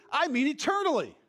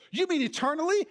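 First: Preacher answering his own question; firm answer. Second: Rising like a doubting listener; playing the skeptic; mock question. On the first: Acted. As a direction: land "eternally" with a falling close. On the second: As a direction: ask it back with lifted surprise.

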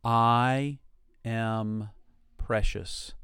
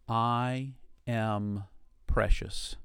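First: Each word set apart, slow; paced affirmation. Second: Slow affirmation. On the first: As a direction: let every word land alone. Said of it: "Say that to yourself". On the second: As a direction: say it gently to yourself. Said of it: "to yourself, say". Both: Shown as a demonstration.

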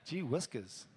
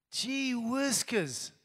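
First: Low muttered repeat. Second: Drawn-out exclamation. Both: Shown as a demonstration. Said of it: "I haven't said that in ages".

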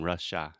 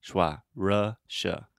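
First: Russia with a full AH ending, rush-AH; imitated mispronunciation. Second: Slow RUH-shuh with a schwa ending; correct pronunciation. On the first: Teacher mimics student's slip, Russia ending in a full ah. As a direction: open up the end of Russia to "shah". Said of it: "You're almost saying it like Trump". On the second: Shown as a demonstration. Teacher shows a student the word, Russia slowly ending in schwa. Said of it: "the correct pronunciation is".

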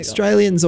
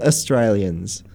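First: Australians as "Straylians", starting on "str"; first syllable dropped. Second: Australians as "uh-Straylians"; short uh onset. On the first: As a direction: leave off the opening vowel of Australians. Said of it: "don't say half the letters". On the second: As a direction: add a brief "uh" to start Australians. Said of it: "It's like an uh". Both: Shown as a demonstration.

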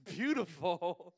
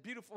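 First: Very slow, louder, teasing beautiful; mock drawn-out beautiful. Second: Said in the usual way. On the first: Pastor teasing the young speaker, slow mocking beautiful. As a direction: stretch "Beautiful." out slowly, mocking. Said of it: "He goes". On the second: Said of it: "I said".

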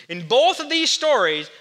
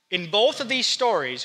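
First: "In both of these stories" said louder, with weight on "both"; emphatic repeat. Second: Said in the usual way. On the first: Shown as a demonstration. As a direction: hit "both" hard the second time round.

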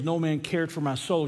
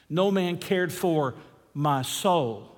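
First: Said in the usual way. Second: Pause, then "my soul" weighted on its own; stress on MY SOUL. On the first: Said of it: "you can emphasize different words". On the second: Shown as a demonstration. Preacher repeats the psalm for congregation, pausing to stress "my soul". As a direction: slowly set "my soul" apart after a break. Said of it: "emphasize those last two words".

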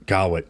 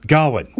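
First: Said in the usual way. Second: "Gawain" blurted louder and higher as the name comes back; triumphant correction. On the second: Shown as a demonstration. [name] correcting himself, remembering: "Gawain" said loud and high. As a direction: snap out "Gawain" in sudden recall. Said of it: "That's his name".

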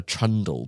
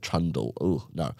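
First: Said in the usual way. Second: "trundle" said quieter and lower, with a falling, disgusted tone; distaste for the word. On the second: Shown as a demonstration. Narrator recoiling from the word "trundle", disgusted. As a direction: let "trundle" drop out of your mouth like something sour. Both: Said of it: "I don't like that word".

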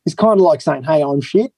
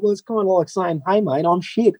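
First: Said in the usual way. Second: Put-on Australian accent, mild. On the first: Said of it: "And he was like". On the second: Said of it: "he's Australian, isn't he?".

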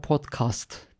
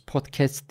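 First: Podcast said "pot-kast"; podcast slowly, ending in a broad "kast"; "podkast" pronunciation. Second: Podcast said "pot-kest"; podcast with a fronted "kest"; "podkest" pronunciation. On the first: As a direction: say podcast with an open a in the second syllable. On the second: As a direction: say podcast with an e in the second syllable. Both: Shown as a demonstration. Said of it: "Nasıl derseniz".

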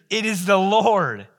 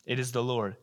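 First: Slow, louder and higher, each word weighted; proclaiming. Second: Hushed. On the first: Disciple telling Peter it is the Lord, slow and loud. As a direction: announce it like a revelation. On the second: Peter hearing the words, repeated softly. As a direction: let it sink in quietly. Retold quietly second time. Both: Acted.

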